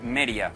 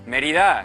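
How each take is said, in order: First: The d between the vowels is dropped entirely. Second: The d between the vowels is clearly pronounced.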